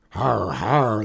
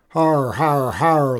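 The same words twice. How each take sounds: First: Gruff spoken "har har"; mock laughter. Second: Higher, louder "har har har"; mock gang laughter. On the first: Outlaw boss laughing at his beaten men, mock guffaw. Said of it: "laughed Hogbone". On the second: Gang joining the boss's laughter, mock guffaw. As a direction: echo the boss like a jeering gang. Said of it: "laughed his men". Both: A narrator's reading.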